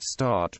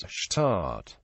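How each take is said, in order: First: Said in the usual way. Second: "shtart" with an SH sound before the T; slow "shtart", hushing the first consonant; Kerry pronunciation. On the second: Shown as a demonstration. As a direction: say "shtart", opening on SH rather than S. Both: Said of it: "The word start becomes shtart".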